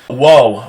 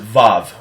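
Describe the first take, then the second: First: The word begins with a W sound. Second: The word begins with a V sound. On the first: The speaker calls it right. "Wow is a, is a W, not a V" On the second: The speaker calls it wrong. "most people pronounce it vav, which is incorrect"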